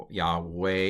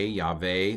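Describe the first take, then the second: First: "Yahweh" slowly, with a W sound; older pronunciation. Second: "Yahweh" with a V sound, YAH-vay; modern pronunciation. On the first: Teacher checks the vowels, slow "Yahweh" with W. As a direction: say "Yahweh" as YAH-way, drawn out. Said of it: "and the older pronunciation". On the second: Teacher checks the vowels, "Yahweh" with V. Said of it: "which is pronounced". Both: Shown as a demonstration.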